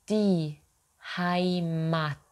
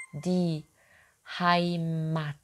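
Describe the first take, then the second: No difference in how they are said.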